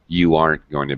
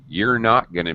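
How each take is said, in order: First: Are and not merge into aren't. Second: You and are merge into you're. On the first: "We usually contract uh, the negative not" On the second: "Or I could actually contract you and are"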